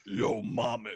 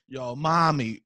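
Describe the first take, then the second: First: Lower, gruffer "Yo, mommy" growled low; tough mommy. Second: Lightly toughened "Yo, mommy"; tough mommy. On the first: Second try for Robbie, a lower tough-guy "Yo, mommy". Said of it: "Let me try". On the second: Asked by Robbie, a mild tough-guy "Yo, mommy". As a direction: try to sound hard saying "Yo, mommy". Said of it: "Can you make mommy sound tough?". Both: Shown as a demonstration.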